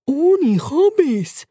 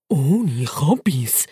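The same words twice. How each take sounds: First: Higher, very slow, drawn-out catchphrase; squeaky guinea pig. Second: Very slow, drawn-out, lower; lower slow catchphrase. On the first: Bacon to Turbo, slow squeaky catchphrase. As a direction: stretch out the words like a pet's motto. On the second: Bacon to Turbo, slow deadpan catchphrase. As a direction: drag out the motto deadpan. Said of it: "sagt der Bacon". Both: Acted.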